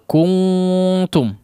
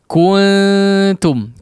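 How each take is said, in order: First: The nasal sound is heavy, with rounded lips. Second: The nasal sound is light, with neutral lips. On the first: The speaker calls it wrong. "menjadi tebal" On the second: The speaker calls it right. "dikembalikan ke posisi netral"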